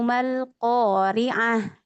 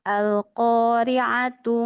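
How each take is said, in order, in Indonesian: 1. Kata ini berakhir dengan bunyi h yang lembut. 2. Kata ini berakhir dengan bunyi t dan sebuah vokal. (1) "Kalau diwakafkan menjadi ha" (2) "kalau diwasal menjadi ta"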